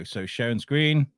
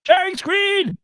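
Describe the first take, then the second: First: Said in the usual way. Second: Much higher, louder sing-song call; sing-song announcement. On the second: Shown as a demonstration. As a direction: announce it like a fanfare.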